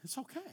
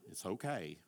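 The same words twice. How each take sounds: First: "okay" soft and high with a rising end; self-soothing child. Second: "okay" soft and low with a falling end; self-soothing child. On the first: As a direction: hush yourself gently, with the end going up. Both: Retold or imitated. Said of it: "She'd sit there and she'd go".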